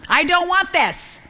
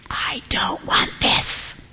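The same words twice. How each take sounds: First: High, drawn-out mock tantrum whine; hammed-up, stretched childish protest; temper tantrum. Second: Slow, whispery complaint; drawn-out whispered protest; reluctant student groan. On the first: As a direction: whine it like a balking child, pitch way up. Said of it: "We do throw temper tantrums". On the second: Acted. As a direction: imitate a student dreading an assignment, voice dropped to a whisper. Students balking at an assignment.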